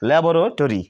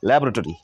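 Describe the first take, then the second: First: The middle vowel is fully pronounced. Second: The middle vowel is silent. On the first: The speaker calls it wrong. "Not ল্যাবরেটরি" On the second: The speaker calls it right. "কিন্তু ল্যাবরেটরি"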